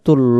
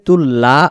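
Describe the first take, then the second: First: The L syllable has a darker 'lo' vowel. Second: The L syllable has a clear 'la' vowel. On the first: The speaker calls it right. "তুল্ল আমরা বলবো" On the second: The speaker calls it wrong. "তুল্লা উচ্চারণটা না করে"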